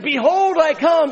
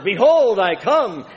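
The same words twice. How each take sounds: First: The phrase is said at its loudest, almost shouted. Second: The phrase is said at a moderately raised volume. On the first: "Finally, he leaned out over the pulpit saying" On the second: "he began to say it louder and louder and louder"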